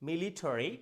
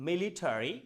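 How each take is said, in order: The two takes are said the same way.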